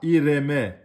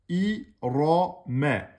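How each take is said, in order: First: The r sound is thin and light. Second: The r sound is heavy and full. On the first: The speaker calls it wrong. "C'est faux, vous avez aminci le ra" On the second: The speaker calls it right. "Le ra est emphatique"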